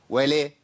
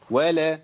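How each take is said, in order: First: ولا with its A tilted toward E, "wa-lee"; imala on lam. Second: Said in the usual way. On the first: Shown as a demonstration. Teacher shows what not to say, ولا with imala toward E. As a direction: tilt the vowel of ولا toward "weh-leh". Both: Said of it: "أنت بتعمل إمالة لحركة اللام".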